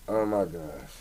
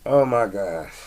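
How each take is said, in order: First: Oh my gosh, dropped softer to himself; softer repeat. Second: Said in the usual way. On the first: Real, not acted. Podcaster savoring his drink, repeating softly to himself. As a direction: let it fall away, much softer.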